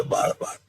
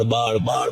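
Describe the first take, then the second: First: બાળ બાળ fading into a voiceless whisper; the burning trails off in a hush. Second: Said in the usual way. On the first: Acted. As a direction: let બાળ die away to a breath.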